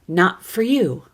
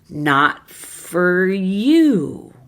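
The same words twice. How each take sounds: First: The phrase is said quickly and connected. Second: The phrase is said slowly and connected. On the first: "Now quickly" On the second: "I'll do it slowly a few times"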